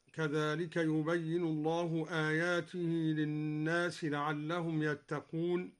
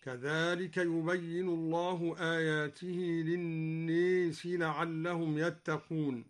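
First: Said in the usual way. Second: للناس with the long a leaned toward e, linnees; للناس said with imala; imala on the word for people. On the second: Shown as a demonstration. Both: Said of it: "قرأ الدوري بإمالة الناس هكذا".

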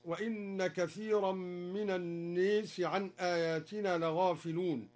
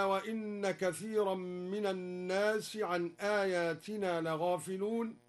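First: "الناس" with aa tilted to ee, "an-nees"; imala on الناس. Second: Said in the usual way. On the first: Shown as a demonstration. Teacher showing the reading, "الناس" with imala as an-nees. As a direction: recite "الناس" with a fronted long vowel. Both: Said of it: "بإمالة الناس".

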